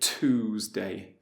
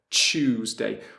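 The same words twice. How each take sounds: First: The word begins with a plain t sound. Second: The word begins with a ch sound. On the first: "We wouldn't say Tuesday" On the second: "we would say ch"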